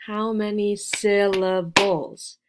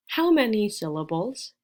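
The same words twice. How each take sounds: First: SYLLABLES slowed and split into three separate beats. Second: Said in the usual way. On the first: Shown as a demonstration. Teacher asks learners to count, syllables broken apart. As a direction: break "syllables" into beats, slowly.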